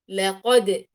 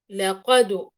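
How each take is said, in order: First: The final d bounce has no vowel colour. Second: The final d bounce leans toward a u vowel. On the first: The speaker calls it right. "وهي في الأصل لقد، لقد، لا أميلها إلى فتح ولا إلى كسر ولا إلى ضم" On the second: The speaker calls it wrong. "أميلها إلى ضم"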